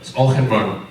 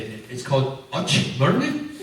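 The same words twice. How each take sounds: First: Auchenmurn said in full as AW-khen-murn; correct Auchenmurn. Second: Uchmurn said as UCH-murn, first syllable clipped short; mispronounced Uchmurn. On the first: Shown as a demonstration. Correcting visitors with the proper Auchenmurn. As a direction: give the proper Scottish Auchenmurn. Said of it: "No. It's Auchenmurn". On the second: Retold or imitated. Visitors getting the place name wrong as Uchmurn. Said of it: "people actually have come and said".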